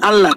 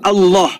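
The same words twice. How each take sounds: First: The L is light and thin. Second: The L is heavy and thick. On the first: The speaker calls it wrong. "bukan Allah" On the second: The speaker calls it right. "lamnya itu dibaca tafkhim, dibaca tebal"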